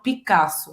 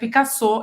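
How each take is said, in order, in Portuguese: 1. O nome é dito com sotaque português. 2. O nome é dito com sotaque francês. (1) "e não Picasso" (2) "vai ser Picasso"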